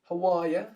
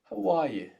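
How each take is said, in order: First: The last word is shortened to ya. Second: The last word is said fully as you.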